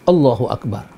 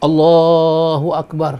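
First: The vowel in Allah is kept short. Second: The vowel in Allah is drawn out very long. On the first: The speaker calls it right. "dia diucap tanpa alif, tanpa harakat" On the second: The speaker calls it wrong. "dikatakan nak panjang sampai 14 harakat"

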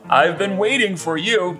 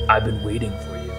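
First: The line sounds warm and welcoming. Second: The line sounds only mildly threatening. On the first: "It sounds like I want him here" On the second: "It doesn't sound menacing enough"

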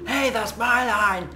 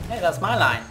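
First: It is shouted loudly and excitedly. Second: It is said calmly, without shouting.

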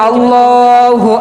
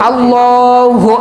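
Both takes have the same delivery.

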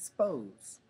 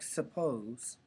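First: The first vowel is dropped. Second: The first vowel is fully pronounced. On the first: "Schwa deletion is taking a word like suppose and making it suppose" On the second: "taking a word like suppose"

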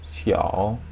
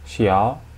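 First: The pitch dips low, then rises. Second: The pitch rises from mid to high.

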